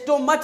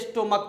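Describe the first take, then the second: First: The ending is said with a 'ch' sound. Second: The ending is said with a 'k' sound. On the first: The speaker calls it wrong. "इसे स्टोमच नहीं पढ़ते" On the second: The speaker calls it right. "इसे स्टोमक पढ़ा जाता है"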